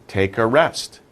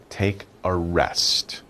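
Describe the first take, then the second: First: Said in the usual way. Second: Slow, drowsy, soft repeat. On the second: Shown as a demonstration. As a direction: ease off as if resting. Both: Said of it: "You're resting".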